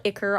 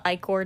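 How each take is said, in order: First: "Ichor" with a short first vowel, IK-er; others' pronunciation of Ichor. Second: "I-Corps" with a long I, then "core"; own pronunciation of I-Corps. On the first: Vlogger citing how some people call it, "Ichor" as IK-er. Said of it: "some people call it Ichor". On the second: Vlogger defending their own version, "I-Corps" as EYE-core. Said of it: "I call it I-Corps". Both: Shown as a demonstration.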